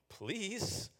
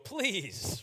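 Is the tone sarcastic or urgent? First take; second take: sarcastic; urgent. First: It is said with a sarcastic tone. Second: It is said urgently, like a cry.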